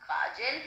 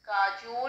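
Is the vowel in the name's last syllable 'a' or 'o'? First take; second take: a; o. First: The last syllable has an 'a' vowel. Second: The last syllable has an 'o' vowel. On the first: This is the usual form of the name. "उनका नाम काजल है" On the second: This is the Bengali form of the name. "क्योंकि वो बंगाली हैं तो उनका काजोल"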